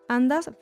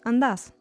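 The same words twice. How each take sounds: First: The stress is on the first syllable. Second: The stress is on the last syllable. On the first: This is the form used with tú. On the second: This is the form used with vos.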